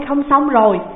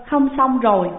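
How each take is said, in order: First: Loud, higher, panting alarm; breathless alarm. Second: Lightly crying. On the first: Disciple gasps out the bad news, loud and breathless. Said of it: "thở hào hển nói rằng". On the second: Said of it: "quỳ xuống khóc ròng". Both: Acted.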